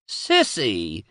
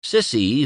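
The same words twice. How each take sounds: First: Drawn-out mild wail of her name; a mother's lightly wailed reproach. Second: Said in the usual way. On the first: A narrator's reading. Mother scolding her daughter, mildly wailing. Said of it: "wailed her mother".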